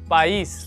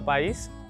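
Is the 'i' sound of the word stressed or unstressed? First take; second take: stressed; unstressed. First: The i sound is said with stress. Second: The i sound is said without stress. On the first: The speaker calls it right. "जब आप स्ट्रेस दे के बोलेंगे तो price" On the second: The speaker calls it wrong. "अगर हम बिना स्ट्रेस दिए बोलेंगे तो हो जाएगा पाइस"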